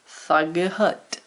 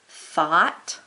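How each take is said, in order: First: The word is said with a hard G sound. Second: The word has an ah sound, no G. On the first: This is how it might have been said long ago. "they might have said more of these letters" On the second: This is how it is said today. "thought, ah"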